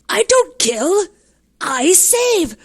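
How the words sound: It is said in an offended tone.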